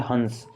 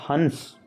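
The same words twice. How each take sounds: First: हंस with only a nasal vowel, haans; light nasal. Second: हंस with a clear half n, hans; half n sound. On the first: Teacher contrasts हंस with just a light nasal vowel. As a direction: say हंस through the nose, no real n. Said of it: "इसमें हल्का सा न बोलता है". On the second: Teacher shows the class हंस said with a half n. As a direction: say हंस with a full n before the s. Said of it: "आधा न बोलेगा". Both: Shown as a demonstration.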